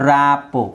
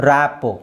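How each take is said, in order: Both takes have the same delivery.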